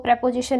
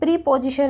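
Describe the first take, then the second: First: The first syllable is short, like 'prep'. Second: The first syllable is long, like 'pree'. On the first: The speaker calls it right. "प्रेपोजिशन ना read करके" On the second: The speaker calls it wrong. "प्री पोजिशन read करने लग जाते हैं"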